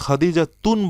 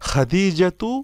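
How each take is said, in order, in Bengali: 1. শব্দটিতে একটি অতিরিক্ত n ধ্বনি যোগ হয়। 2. শব্দটি একটি সাধারণ স্বরধ্বনি দিয়ে শেষ হয়। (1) "আপনি এখানে খাদিজাতুন বলবেন না" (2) "তানউইন ছাড়া পড়তে হবে"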